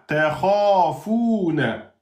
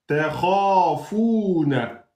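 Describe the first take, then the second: The two takes are said the same way.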